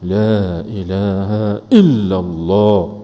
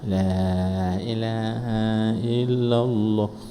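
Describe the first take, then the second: First: It is said loudly and forcefully. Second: It is said softly, like a lullaby. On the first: It is strong enough to clean the heart. The speaker calls it right. "Dia kena kuat" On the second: It only puts people to sleep. The speaker calls it wrong. "Macam yang kita duk zikir nak ayun cucu"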